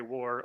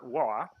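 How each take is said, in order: First: Said in the usual way. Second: Boston accent, WAR with the R dropped; non-rhotic Boston WAR, ending in an open vowel. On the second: Shown as a demonstration. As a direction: say WAR as "wah", Boston style. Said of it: "the Boston accent came to fruition".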